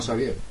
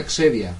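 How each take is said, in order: First: Xavier said the Spanish way, savier; Xavier read in Spanish, savier; Spanish pronunciation. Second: Xavier said the English way, starting with a ks sound; English pronunciation. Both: Shown as a demonstration. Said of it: "No se llama Xavier".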